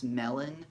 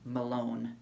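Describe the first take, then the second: First: The name sounds like the fruit melon. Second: The name sounds like 'Malone', stressing the second syllable. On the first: This is how most people say the name. The speaker calls it wrong. "I know it's Melon or how people would pronounce it" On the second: It sounds more manly. The speaker calls it right. "I would just say Malone"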